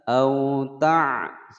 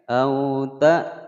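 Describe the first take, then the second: First: The second word starts with a throaty ain. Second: The second word starts with a glottal stop. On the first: The speaker calls it wrong. "tidak boleh membaca au ta, salah ya" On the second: The speaker calls it right. "ada hamzah bukan ain"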